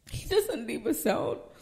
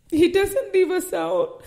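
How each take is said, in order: First: Hushed repeat. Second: Higher and louder, proclaiming it; emphatic proclamation. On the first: Pastor repeating the promise softly to the congregation, hushed. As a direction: bring it down to a near murmur. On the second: Pastor declaring God's faithfulness to the church, emphatic proclamation. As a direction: lift it up and declare it. Repeated line, first take. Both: Acted.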